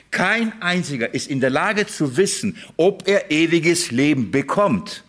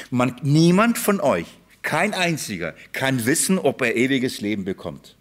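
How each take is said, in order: First: Slow, weighty repeat with "Kein" hit hard; emphatic repeat. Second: Said in the usual way. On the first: Shown as a demonstration. Preacher repeats the shocking claim to the congregation, slow and stressed. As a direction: lean on "Kein einziger", then slow right down on "ob er ewiges Leben bekommt". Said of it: "Ich mein's ehrlich". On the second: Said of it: "Ich hab mich nicht versprochen".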